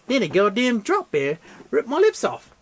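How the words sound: It is read in an Australian accent.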